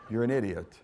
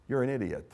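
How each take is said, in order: First: Amused laughing rebuke. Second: Said in the usual way. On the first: Real, not acted. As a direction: chuckle through the insult. Preacher repeats insult laughing.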